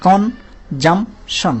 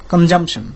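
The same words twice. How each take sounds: First: কনজামশন very slow, con... jum... shon; three separate syllables. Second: Said in the usual way. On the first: Shown as a demonstration. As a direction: pause after each syllable of কনজামশন. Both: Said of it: "তিনটা অংশে বাড়ি খাচ্ছে".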